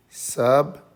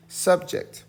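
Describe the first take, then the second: First: Subject as SUB, long pause, JECT; higher, separate beats in Subject with crisp final kt; split into syllables. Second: Said in the usual way. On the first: Shown as a demonstration. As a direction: break Subject into sub... ject, each stressed. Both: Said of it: "Break it here".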